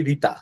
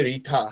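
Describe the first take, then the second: First: Tongue on the teeth for the t in রিতা; Bengali pronunciation. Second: রিঠা with a hard, aspirated English t; English pronunciation. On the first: Shown as a demonstration. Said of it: "বাংলাতে তো বলি রিতা". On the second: Retold or imitated. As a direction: say রিঠা as English speakers would. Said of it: "ইংরেজরা উচ্চারণ করে রিঠা".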